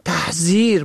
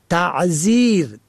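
First: تحذیر with a breathed h after ta; the confused form تحذیر, audible h mid-word; he in place of ain. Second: Said in the usual way. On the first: Shown as a demonstration. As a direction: say تحذیر as tah-zir. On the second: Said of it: "عین زال".

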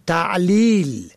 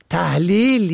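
First: Said in the usual way. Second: تحلیل with a breathed h after ta; the confused form تحلیل, audible h mid-word; he in place of ain. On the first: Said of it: "ت عین لام یا لام". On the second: Shown as a demonstration. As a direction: say تحلیل as tah-lil.

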